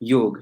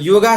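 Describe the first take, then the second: First: The word ends on the final consonant. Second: The word ends with an added 'a' vowel. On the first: The speaker calls it right. "इसका सही सही word है योग।" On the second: The speaker calls it wrong. "योगा सही नहीं है pronunciation."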